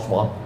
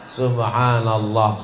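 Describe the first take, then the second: First: It is said very fast and slurred. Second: It is said at a clear, moderate speed. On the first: The speaker calls it wrong. "bunyinya udah nggak jelas" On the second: The speaker calls it right. "tidak terlalu cepat, tidak terlalu pelan"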